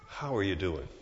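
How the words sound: It is asked with sincere, caring interest.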